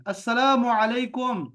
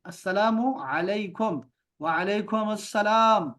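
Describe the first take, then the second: First: अस्सलामु said quickly, letters not opened; casual अस्सलामु अलैकुम with slurred letters; Arabic greeting. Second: अस्सलामु with a doubled स, slow and open; letters spoken open. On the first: Teacher gives the quick everyday version first. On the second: Teacher shows girls the clear Arabic greeting. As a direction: slowly open every letter of अस्सलामु अलैकुम. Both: Shown as a demonstration. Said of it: "हरूफ को खुल के आपने बोलना है".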